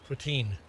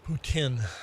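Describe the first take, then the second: First: The word is said with an anglicized, English-style pronunciation. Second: The word is said with its original, non-English pronunciation. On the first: "Anglicized to put" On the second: "the actual pronunciation should be uh"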